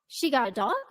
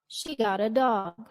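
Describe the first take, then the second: First: The voice rises sharply at the end. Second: The voice falls at the end.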